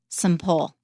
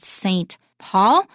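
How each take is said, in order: First: Saint is reduced to a short weak syllable. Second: Saint is said fully with a clear vowel. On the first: It names a cathedral. "the cathedral in London is called Saint Paul" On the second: It names a city. "I come from a city called Saint Paul"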